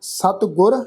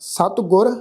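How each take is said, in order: No difference in how they are said.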